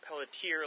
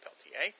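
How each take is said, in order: First: The name is pronounced in an American way. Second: The name is pronounced in a French way. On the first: This is how the name is said on the American side. "on the American side, Maine, they pronounce it Pelletier like you do" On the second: This is how the name is said in the French-speaking area. "that's a French name from my area, pronounced Pelletier"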